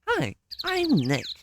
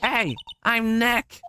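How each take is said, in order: First: It is said quietly. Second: It is said loudly.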